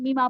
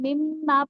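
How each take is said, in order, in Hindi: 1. m छोटा है, इस पर कोई अतिरिक्त ज़ोर नहीं है। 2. m को लंबा खींचा गया है, यह नासिक्य है और इस पर ज़ोर है। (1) "अगर मैं शद हटा दूँ और मीमा पढ़ूँ, तो उसमें वो बात नहीं है, वो स्ट्रेस नहीं है" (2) "जब मैं मिम्मा पढ़ती हूँ, ना सिर्फ़ गुन्ना का स्ट्रेस होता है"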